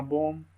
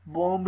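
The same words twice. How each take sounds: First: "बॉम्ब" as "bom", closing on m; silent final b. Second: "बॉम्ब" with an audible final b, "bomb-b"; b wrongly sounded. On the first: Teacher correcting the reading, final b left silent. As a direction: drop the last b of "बॉम्ब". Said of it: "बॉम्ब नहीं पढ़ना". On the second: Teacher showing how not to read it, final b sounded. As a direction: release the b after m in "बॉम्ब". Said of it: "नहीं पढ़ना". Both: Shown as a demonstration.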